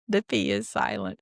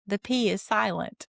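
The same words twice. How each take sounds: First: Much lower goofy voice on the punchline; deep silly voice. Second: Said in the usual way. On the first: Pretend. Podcaster delivering the pun's punchline, in a deep silly voice. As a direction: drop into a deep joke voice. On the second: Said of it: "punchline said twice".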